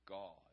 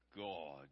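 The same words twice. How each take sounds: First: It is said in his normal speaking voice. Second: It is said in a put-on preacher voice.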